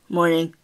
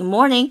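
First: It is said in a flat, unfriendly tone. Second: It is said in a happy, cheerful tone.

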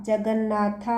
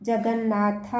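The two takes are said the same way.

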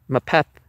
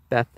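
First: The word begins with an M sound. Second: The word begins with a B sound. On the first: The speaker calls it wrong. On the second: The speaker calls it right.

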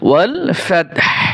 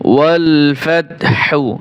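First: The last word ends with a bare h sound. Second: The last word ends with a voiced hu vowel. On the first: The reciter stops at the end of the verse. "যখন ওয়াকফ করব তখন হু হবে না" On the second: The reciter continues without stopping. "হা পেশ হু"

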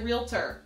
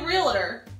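First: The word is said with three syllables. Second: The word is said with two syllables. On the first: This is the form other people use. The speaker calls it wrong. "some people say realtor. ... just saying that sounds so weird" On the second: This is the speaker's own everyday form. The speaker calls it right. "I say realtor"

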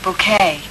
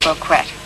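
First: The word is said with its usual pronunciation. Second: The word is said the way its spelling looks. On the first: The speaker calls it right. "But it's pronounced bouquet" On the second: The speaker calls it wrong. "It does look like bouquet"

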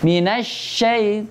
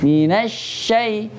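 The two takes are said the same way.

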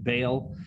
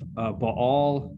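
First: The word is given an English-style pronunciation. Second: The word is not given an English-style pronunciation.

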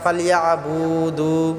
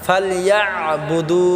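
First: The syllables bu and du are drawn out. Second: The syllable bu is kept short. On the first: The speaker calls it wrong. "বু টান করি, দু টান করি, এখানে বু টান হবে না।" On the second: The speaker calls it right. "বুদু এরকম হবে।"

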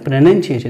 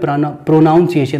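First: The second syllable sounds like 'nun'. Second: The second syllable sounds like 'noun'. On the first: The speaker calls it right. "प्रोनाउंसिएशन बोलते हैं" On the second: The speaker calls it wrong. "प्रोनाउंसिएशन हम बोल देते हैं, तो ये गलत है"

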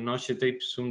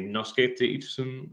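First: It is read with Italian letter sounds. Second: It is read with Latin letter sounds. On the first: "desde la italización" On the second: "en latín"

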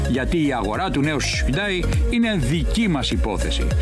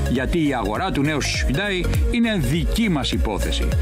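Both takes have the same delivery.

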